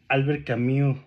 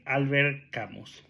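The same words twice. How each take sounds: First: The name is pronounced with French sounds. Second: The name is pronounced with Spanish sounds.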